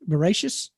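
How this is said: The word ends with an s sound.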